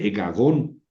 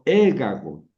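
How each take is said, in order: First: The stress falls on a later syllable. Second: The stress falls on the first syllable. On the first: The speaker calls it wrong. "ni dice egagón" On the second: The speaker calls it right. "El acento está sobre la eta"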